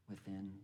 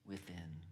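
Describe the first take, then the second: Both takes have the same delivery.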